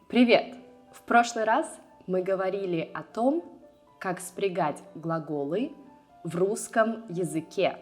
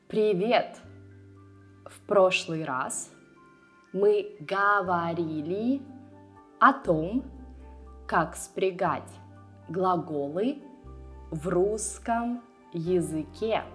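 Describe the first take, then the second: First: The phrase is spoken at a normal pace. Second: The phrase is spoken at a slower pace.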